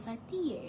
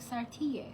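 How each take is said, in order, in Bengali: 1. নামটি ইতালিয়ান ধাঁচের উচ্চারণে বলা হয়েছে। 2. নামটি ইতালিয়ান ধাঁচের উচ্চারণে বলা হয়েছে।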